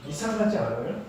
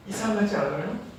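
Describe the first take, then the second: No difference in how they are said.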